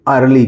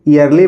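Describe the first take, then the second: First: The word starts with an er vowel. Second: The word starts with an ee vowel. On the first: The speaker calls it right. "इसको हम पढ़ेंगे अर्ली" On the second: The speaker calls it wrong. "ईयरली पढ़ेंगे"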